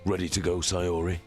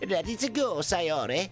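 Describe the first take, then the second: First: It is said in the main character's voice. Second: It is said in Sayori's character voice.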